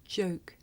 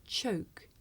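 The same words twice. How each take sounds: First: Joke, starting with a buzzing voiced j; voiced contrast word. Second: Choke, with a soft, breathy unvoiced ch; soft voiceless contrast word. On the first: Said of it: "the voiced sound". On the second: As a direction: start Choke with a puff of air. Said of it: "I'll say the word with the voiceless sound first". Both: Shown as a demonstration.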